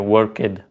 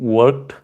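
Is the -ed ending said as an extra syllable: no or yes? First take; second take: yes; no. First: The -ed ending is said as its own syllable. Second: The -ed ending is not a separate syllable. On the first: "she used to say worked. She used to pr pronounce this uh, ed part of it as well" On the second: "Instead of saying worked"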